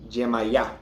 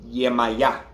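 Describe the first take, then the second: The two takes are said the same way.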